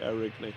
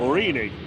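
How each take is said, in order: First: The name begins with an 'air' sound. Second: The name begins with an 'or' sound. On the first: The speaker calls it wrong. "I don't know whether I'm saying that right" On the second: The speaker calls it right. "That's how you say it"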